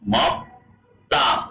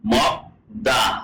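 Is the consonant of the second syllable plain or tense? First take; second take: tense; plain. First: The second syllable starts with a tense consonant. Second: The second syllable starts with a plain consonant. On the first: "কোরিয়ানরা উচ্চারণ করবে কি মক তা" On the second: "বইতে লেখা আছে কি মক দা"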